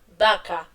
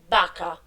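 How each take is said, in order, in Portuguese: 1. A palavra começa com um b de lábios. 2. A palavra começa com um b de lábios.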